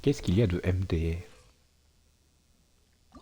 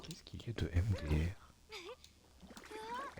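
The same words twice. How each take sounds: First: Said in the usual way. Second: Slow, breathy whispered mock voice; hushed slow mock reading of the chat; slow put-on whisper. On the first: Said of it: "mon accent raciste". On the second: Shown as a demonstration. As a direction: breathe the question out slowly in a put-on voice. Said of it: "Est-ce que c'est mon accent raciste?".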